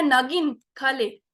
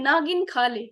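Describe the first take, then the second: First: "नागिन" as one word, slow "खा ले"; नागिन run together. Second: "नागिन" as two words, "ना गिन", then "खा ले"; ना गिन split. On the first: Trainer repeats the first reading, "नागिन" in one piece. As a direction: keep "नागिन" whole, pause, "खा ले". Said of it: "पहले मैंने इकट्ठे बोल दिया". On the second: Trainer repeats the second reading, "नागिन" split in two. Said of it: "दूसरा है". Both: Shown as a demonstration.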